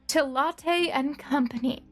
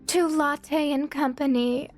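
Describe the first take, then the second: First: It is read in the speaker's normal voice. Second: It is read in a put-on character voice.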